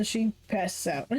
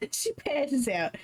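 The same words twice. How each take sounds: First: Said in the usual way. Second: Slow, giggling reread; laughing. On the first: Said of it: "laughing reread". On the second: Real, not acted. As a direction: laugh while saying it.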